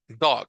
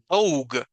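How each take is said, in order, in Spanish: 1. La vocal es corta y seca. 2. La vocal es larga y prolongada. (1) "mucho más cortito" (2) "porque si no sería dog"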